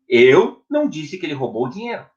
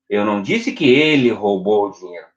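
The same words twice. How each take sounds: First: The stress falls on the word eu. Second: The stress falls on the word ele. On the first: Someone else said it. "Então, quem falou?" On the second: Someone else stole it. "Quem roubou?"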